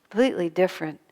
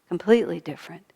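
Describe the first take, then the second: Both takes have the same delivery.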